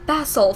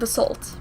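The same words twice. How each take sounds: First: The word is said with a British pronunciation. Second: The word is said with an American pronunciation. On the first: "I think there was a British way and an American way" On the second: "American basalt"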